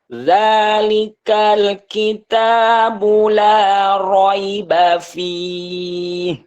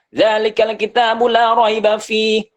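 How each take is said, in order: First: It is recited slowly and relaxed. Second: It is recited quickly.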